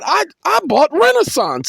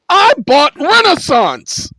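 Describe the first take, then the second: First: The phrase is said quietly and calmly. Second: The phrase is yelled loudly. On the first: "is what I said" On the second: "I didn't yell it like that"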